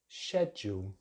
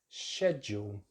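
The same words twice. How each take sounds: First: The word begins with a 'shed' sound. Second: The same.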